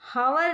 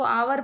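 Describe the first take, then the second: First: The word begins with an h sound. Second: The word begins with a vowel sound. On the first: The speaker calls it wrong. "इसको हावर नहीं पढ़ेंगे" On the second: The speaker calls it right. "इसको आवर पढ़ेंगे, एच इसमें silent है"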